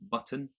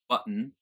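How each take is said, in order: First: The T is released clearly before the last syllable. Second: The T is held and released through the nose. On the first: "in my accent I pronounce the T" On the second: "in a general American"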